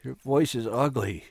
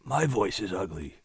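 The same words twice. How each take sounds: First: Despairing. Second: Sobbing gently. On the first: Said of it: "she said despairingly". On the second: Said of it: "and sobbed gently". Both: Acted.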